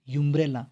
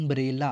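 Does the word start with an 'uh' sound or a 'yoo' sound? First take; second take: yoo; uh. First: The word begins with a 'yoo' sound. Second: The word begins with an 'uh' vowel sound. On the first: The word would take the article 'a'. "यदि इसको यूं बोला जाए" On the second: The word takes the article 'an'. "अ का उच्चारण कर रहे हैं"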